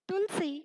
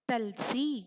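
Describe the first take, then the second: First: The first syllable has a short 'u' vowel. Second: The first syllable has a short 'a' vowel. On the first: The speaker calls it right. "शब्द बना तुलसी" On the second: The speaker calls it wrong. "बिना ऊ की मात्रा लगाए"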